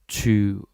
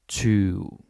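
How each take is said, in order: Both takes have the same delivery.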